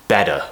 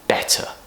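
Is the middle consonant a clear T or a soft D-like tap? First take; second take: tap; clear T. First: The middle T is a soft D-like tap. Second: The middle T is a clear, aspirated T. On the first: The speaker calls it wrong. "try not to pronounce the T with this tap sound, this American style D sound" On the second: The speaker calls it right. "we want better"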